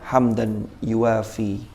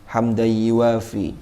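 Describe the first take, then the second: First: The n sound is pronounced clearly and separately. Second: The n sound merges into the following sound.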